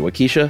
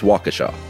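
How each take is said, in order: First: The middle sounds like the name Kesha. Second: The middle does not sound like Kesha. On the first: The speaker calls it wrong. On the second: The speaker calls it right.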